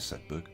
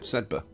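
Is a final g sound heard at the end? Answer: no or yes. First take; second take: yes; no. First: The name ends with a g sound. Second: The name ends without a g sound. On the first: "I'm still going to call it Sedberg. I think it sounds better" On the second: "Apparently the GH is silent"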